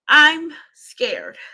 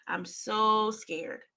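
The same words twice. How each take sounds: First: Louder, higher cry of fear; scared outburst. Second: Softer, very slow, frightened; hushed fear. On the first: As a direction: blurt out the fear, loud. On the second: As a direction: let the fear sink in quietly. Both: Real, not acted.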